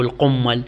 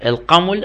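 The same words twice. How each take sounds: First: القمل as qummal, doubled m; with shadda. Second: القمل as qaml, single m; without shadda. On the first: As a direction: hold the m long in القمل, u after the q. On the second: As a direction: keep the m short in القمل, no doubling. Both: Shown as a demonstration. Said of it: "يقرأ بالتشديد أو بدون شدة".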